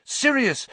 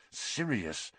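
First: High, loud yell of the name. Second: Muttered. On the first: Harry calls to Sirius about the escape, yelling. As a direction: call out urgently for help. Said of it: "Harry yelled". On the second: Harry hears a dog in pain, muttering. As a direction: mutter it under your breath. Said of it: "Harry muttered". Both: A narrator's reading.

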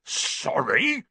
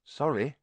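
First: Higher, incredulous bark, rising. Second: Quick, slightly higher reply; quick apology. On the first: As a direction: bark it back as a question. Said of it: "barked Hagrid". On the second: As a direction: apologise hastily, unsure. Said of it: "said quickly". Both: A narrator's reading.

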